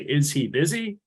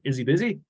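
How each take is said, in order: First: Each word is said separately and clearly. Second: The words run together in a slurred way. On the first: "We don't say" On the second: "we slur our words together"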